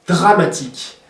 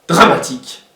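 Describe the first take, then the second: The two takes are said the same way.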